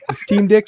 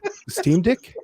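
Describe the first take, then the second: First: It is said in the speaker's ordinary accent. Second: It is said in an Australian accent.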